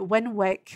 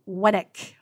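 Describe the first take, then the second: First: The middle w sound is pronounced. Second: The middle w sound is silent. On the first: It follows the spelling. The speaker calls it wrong. "I pronounced it Winwick, which is how it's spelled" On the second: It is the local pronunciation. The speaker calls it right. "it's actually correctly Winnick"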